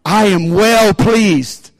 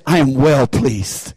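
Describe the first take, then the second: First: Very slow, drawn-out declaration; slow proclamation. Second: Tender father's voice. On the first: Shown as a demonstration. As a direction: stretch every word like a proclamation. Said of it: "say it with me". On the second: Retold or imitated.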